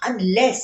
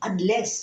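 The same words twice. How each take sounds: First: Unless pushed up higher and louder with a rise; emphatic unless. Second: Said in the usual way. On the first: Real, not acted. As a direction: lean hard on the first unless.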